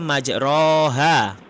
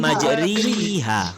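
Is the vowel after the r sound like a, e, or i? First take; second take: a; i. First: The vowel after r is an open a sound. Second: The vowel after r is a close i sound. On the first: This is how it sounds with the upper vowel mark. "kalau baris atas berarti bunyi dia majroha" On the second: This is how it sounds with the lower vowel mark. "Kalau baris bawah berarti"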